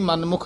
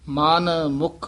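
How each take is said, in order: First: The two words are run together without a pause. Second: A short pause separates the two words. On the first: The speaker calls it wrong. "ਇਹ ਵੀ ਮਨ ਮੁਖ ਨਹੀਂ ਕਹਿ ਦੇਣਾ" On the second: The speaker calls it right. "ਮਨ ਵੱਖਰਾ ਮੁਖ ਵੱਖਰਾ"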